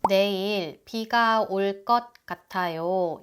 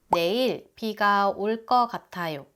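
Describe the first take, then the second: First: The word before gatayo ends in a t sound. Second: The word before gatayo ends in a vowel. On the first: "이렇게 발음해요" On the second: "을 것 같다를 을 거 같다라고 조금 더 편하게 말해도 괜찮아요"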